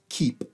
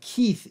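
First: The name ends with a p sound. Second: The name ends with a th sound. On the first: Speakers without the th sound adapted the name. "they're translating the TH sound to a P sound" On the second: This is the original form of the name. "this is how I am Keith in the United States"

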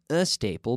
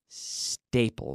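First: A vowel sound comes before the S. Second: The word starts directly with the S. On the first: The speaker calls it wrong. "So not a staple" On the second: The speaker calls it right. "There's no there's no vowel sound before"

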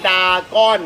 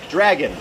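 First: It starts with a plain 'da' without an r. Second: It starts with 'dra', with a clear r. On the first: The speaker calls it wrong. "ไม่ใช่ดาก้อนนะ" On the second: The speaker calls it right. "เราออกเสียงว่าดอรอแอดรา"

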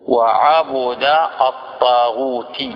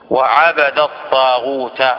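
First: The b takes a u vowel; taghut ends in i. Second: The b takes an a vowel; taghut ends in a. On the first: It is a noun meaning worshipper of. "حمزة يقرأ" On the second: It is a past-tense verb meaning worshipped. "هذه القراءة المعروفة، وهي قراءة جمهور القراء"

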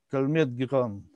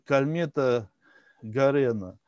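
First: The second name is pronounced Giran. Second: The second name is pronounced Garena. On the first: This is closer to the original French name. The speaker calls it right. "на самом деле это французы" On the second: This is the textbook rendering of the name. The speaker calls it wrong. "как пишут в учебниках"

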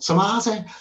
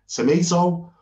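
First: Tomato is said with a Liverpool Scouse accent. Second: Tomato is said with an American accent. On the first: "if you're a Scouser, you go tomato" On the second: "you say tomato, Americans"

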